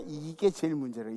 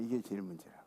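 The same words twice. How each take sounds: First: Said in the usual way. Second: Softer and lower, 이게 trailing off; preacher repeating it softly to herself, quiet; quiet echo. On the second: Shown as a demonstration. Hushed repeat.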